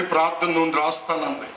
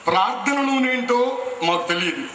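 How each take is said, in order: First: Said in the usual way. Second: నూనె lifted higher, wondering; puzzled stress on నూనె. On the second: Real, not acted. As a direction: lean on నూనె as a strange new word. (నూనె పై ఆశ్చర్యంతో ఒత్తి)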